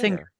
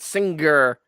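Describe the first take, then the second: First: The ng is said without a hard G. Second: The ng is followed by a hard G. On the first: The speaker calls it right. "I don't pronounce the hard G" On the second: The speaker calls it wrong. "but doing it Singer is wrong"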